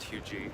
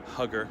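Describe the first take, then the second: First: It is said the French-origin way. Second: It is said the common English way. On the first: This reflects the name's French origin. "it does have a French origin, pronounced" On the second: This is how many people say it. "many people will pronounce it"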